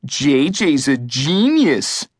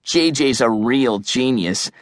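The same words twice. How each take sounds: First: Slow, drawn-out mock admiration. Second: Understated sarcastic praise; dry scoff in a usual-pitched voice; smirking sarcasm. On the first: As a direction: draw out the praise to make fun of it. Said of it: "Eugene mocked". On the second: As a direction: dryly pretend to agree, with a smirk. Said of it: "Adam smirked". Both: A narrator's reading.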